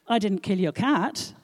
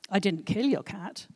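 First: The stress falls on 'cat'. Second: The stress falls on 'kill'. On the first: A different pet was killed, not the cat. "Your gerbil, on the other hand, snuffed it, I'm afraid" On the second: The cat was hurt but not killed. "I maimed it, obviously"

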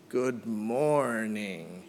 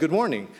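First: The greeting is spoken very slowly. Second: The greeting is spoken very quickly. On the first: "he spoke so slow. He was like" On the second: "like 10 times faster, and then be like"

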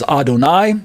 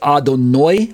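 First: The final syllable sounds like 'eye'. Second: The final syllable sounds like 'oy'. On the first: "it's pronounced as Adon plus I, E-Y-E. And so it comes out as Adonai"

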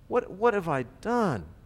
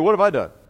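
First: It sounds remorseful and sincerely sorry. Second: It sounds casual and flippant, not sorry.

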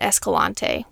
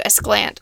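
First: The name is said with all its syllables. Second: The name is said in a clipped, shortened form. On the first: This follows how the name is spelled. The speaker calls it wrong. "Last year we were calling it Escalante, which is what it looks like" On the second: This is how local people say it. The speaker calls it right. "that's how the locals say it now"

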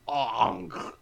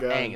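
First: The name is said with exaggerated pronunciation. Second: The name is said in a plain way. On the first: "That's what I feel like this movie is doing" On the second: "it's not Aang"

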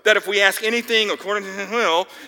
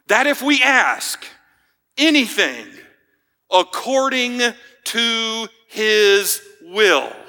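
First: The final phrase is mumbled and rushed. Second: The final phrase is said clearly and deliberately. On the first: The key condition is passed over as unimportant. The speaker calls it wrong. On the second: The key condition is highlighted as most important. The speaker calls it right.

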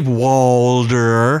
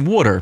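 First: It is said in an American accent. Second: It is said in a non-American accent. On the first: This is how the other person says it. "so you say water" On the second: This is how the speaker says it. "and I say water"

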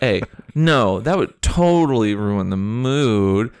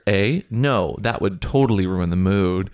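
First: It is read in a put-on teenage voice. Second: It is read in a normal voice.

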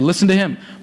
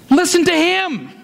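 First: The word him carries no special stress. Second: The word him carries strong stress. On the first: A plain command to listen. "He said" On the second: Listen to this one rather than the others. "But I think he says"

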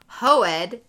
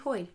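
First: The name is split into two syllables. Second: The name is said as one syllable. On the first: The speaker calls it wrong. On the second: The speaker calls it right.

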